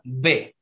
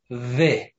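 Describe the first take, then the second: First: It is said as a hard b sound. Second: It is said as a soft v sound. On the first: The letter has a dot inside. "когда у нее есть точка внутри, это слышно Б" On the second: The letter has no dot inside. "когда нету точка, эта буква слышно В. Немножко нежно"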